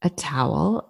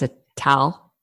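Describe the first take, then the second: First: Said in the usual way. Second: "towel" squeezed into one syllable, TAL; Philly-area pronunciation. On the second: Shown as a demonstration. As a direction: say towel as tal, without the W glide. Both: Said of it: "Towel, T A L".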